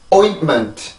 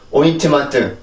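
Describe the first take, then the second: First: The first syllable is strong; the rest weak. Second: All syllables have equal length and pitch. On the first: The speaker calls it right. "영어는 강세가 강하게 발음이 되고 순수 음절은 상대적으로 약하게 발음이 됩니다" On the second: The speaker calls it wrong. "우리나라는 모든 음절이 같은 길이와 같은 높이의 소리를 갖죠"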